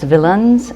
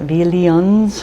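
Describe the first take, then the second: First: The ending is a short, reduced 'in' sound. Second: The ending sounds like 'ee-an', as if spelled -ian. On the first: The speaker calls it right. "It's villains" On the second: The speaker calls it wrong. "I pronounce it villains, which is absolutely wrong"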